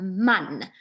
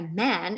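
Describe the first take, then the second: First: The vowel is the open Afrikaans a sound. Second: The vowel is the English short a sound. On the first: This is the Afrikaans word. "we don't say a, we say a" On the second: This is the English word. "looks the same as the English word"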